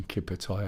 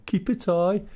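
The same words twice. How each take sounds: First: Said in the usual way. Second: "Keep a tie" called out high and loud, rising, broad Brummie; broad Brummie shout. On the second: Retold or imitated. Customers teasing the shop worker, mock Brummie shout. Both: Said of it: "they've started shouting".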